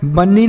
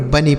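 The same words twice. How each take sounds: First: बन्नी with a doubled, held n; wrong reading of bunny. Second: Said in the usual way. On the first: Shown as a demonstration. Teacher shows pupils what not to read, mispronounced बन्नी with long n. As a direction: misread it as बन्नी, "ban-nee", leaning on the n. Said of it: "बन्नी नहीं". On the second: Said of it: "केवल और केवल बनी पढ़ना है".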